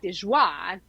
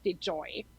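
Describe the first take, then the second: First: The last syllable does not sound like 'joy'. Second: The last syllable sounds like the word 'joy'. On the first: The speaker calls it right. "So it's Tanya Dejoie" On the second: The speaker calls it wrong. "not Dejoy"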